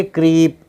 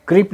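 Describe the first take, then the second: First: क्रीप with a long, stretched ee, "kreep"; long vowel. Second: क्रीप cut short, like "krip"; short vowel, mistaken reading. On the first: Teacher correcting the short reading for learners, drawn-out vowel. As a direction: draw out the ee in क्रीप. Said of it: "थोड़ा सा खींचेंगे". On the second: Teacher showing learners what not to read, short vowel. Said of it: "क्रीप नहीं पढ़ेंगे". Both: Shown as a demonstration.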